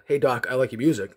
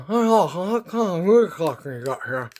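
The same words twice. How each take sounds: First: Said in the usual way. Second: Higher, consonant-less muffled speech; mouth-guard garble. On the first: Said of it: "wanted to say to him". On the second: Retold or imitated. Patient testing the dentist, garbled through a mouth guard. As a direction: garble the words as if the mouth is propped open. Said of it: "put that big mouth guard in".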